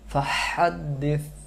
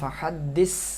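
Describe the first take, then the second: First: The final consonant is a th-sound with tongue forward. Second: The final consonant is a plain s-sound. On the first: The speaker calls it right. "জিহ্বার আগে চলে আসবে" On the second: The speaker calls it wrong. "তখন এটা সিন হয়ে যায়"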